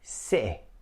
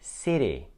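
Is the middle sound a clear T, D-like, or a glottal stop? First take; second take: glottal stop; D-like. First: The middle T is cut off sharply. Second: The middle T sounds like a soft D. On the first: "This is actually a glottal stop" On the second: "you should not pronounce it like D, because this is what Americans do"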